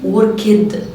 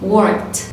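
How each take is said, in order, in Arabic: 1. تُنطق النهاية بضغط قوي وثقيل. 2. صوت التاء الأخيرة ناعم وخفيف. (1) "ليه عملت ستريس في الاخر كده جامد" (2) "الساوند خفيف"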